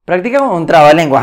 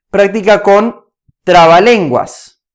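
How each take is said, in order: First: Fast, light restatement; quick repeat. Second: Slow and deliberate, leaning on each word; slow emphatic. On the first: Coach restating the tip to viewers, quick and brisk. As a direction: toss it off quickly the second time. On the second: Coach stressing the final tip to viewers, slow and deliberate. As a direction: lay out the tip slowly so it sinks in. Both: Acted.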